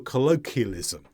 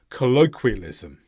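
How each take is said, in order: First: No w sound follows the k sound. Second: A w sound follows the k sound. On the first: The speaker calls it wrong. "Sometimes people miss out that w" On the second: The speaker calls it right. "You must keep that w sound in there"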